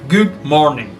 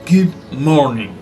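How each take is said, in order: Both takes have the same delivery.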